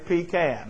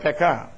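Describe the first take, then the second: First: The word is said the English way. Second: The word is said the French way. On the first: This is how it is said in the wider English-speaking world. "But it's actually pecan, okay, in the English world" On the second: This is how it is said in Louisiana. "that's a French word, pecan. That's the way you say it in French"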